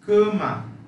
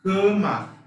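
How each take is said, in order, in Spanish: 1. La primera vocal es una a cerrada. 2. La primera vocal es una a cerrada.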